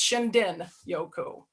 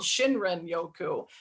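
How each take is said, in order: First: The middle consonant is a D sound. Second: The middle consonant is an R sound. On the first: The speaker calls it right. "it's actually pronounced Shindin Yoku. So the R is a D pronunciation" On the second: The speaker calls it wrong. "I pronounced it wrong as well because it's it's spelled Shinrin Yoku"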